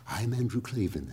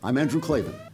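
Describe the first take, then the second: First: It is said in a soft, quiet, hushed voice. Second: It is said in a normal, energetic host voice.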